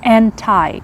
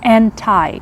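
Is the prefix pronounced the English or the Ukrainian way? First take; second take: English; English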